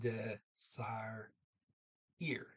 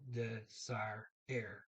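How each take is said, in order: First: The last syllable sounds like 'ear'. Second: The last syllable sounds like 'air'. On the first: The speaker calls it wrong. "I said desire ear" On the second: The speaker calls it right. "Nope, it's desire air"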